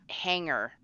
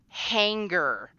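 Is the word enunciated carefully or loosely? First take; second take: loosely; carefully. First: The word is said loosely, without careful enunciation. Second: The word is enunciated carefully and fully. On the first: The speaker calls it wrong. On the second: The speaker calls it right. "I had to say"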